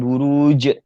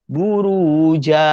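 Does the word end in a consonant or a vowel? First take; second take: consonant; vowel. First: The word ends on a bare 'j' consonant. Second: The word ends on an open 'a' vowel. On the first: The speaker calls it wrong. "bukan buruj" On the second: The speaker calls it right. "kita baca buruja"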